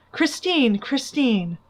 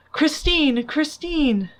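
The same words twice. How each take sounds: First: Moaning call. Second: Raised, despairing call of her name; calling Christine in despair; moaning call. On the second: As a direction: cry out her name into the dark, higher and louder. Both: A narrator's reading. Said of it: "he moaned".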